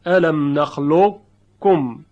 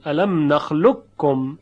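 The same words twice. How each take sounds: First: Slow الم نخلقکم, heavy ق colour kept before ک; partial merge. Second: الم نخلقکم with a clean doubled ک, no heavy ق colour; full merge. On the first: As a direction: keep the thick qaf shade in نخلقکم. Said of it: "باقی بگذارن صفت استعلا و تفخیم رو". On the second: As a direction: say نخلقکم as نخلکّم, plain double ک. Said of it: "ادغام محض رو انتخاب کردن". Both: Shown as a demonstration.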